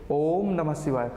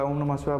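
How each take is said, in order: First: The first vowel 'o' is drawn out long. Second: The first vowel 'o' is short and normal. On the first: The speaker calls it right. "सही से उच्चारण करें तो क्या होगा, ये ओम नमः शिवाय करके होगा" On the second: The speaker calls it wrong. "हम ओम नमः शिवाय ओम नमः शिवाय बोलते हैं"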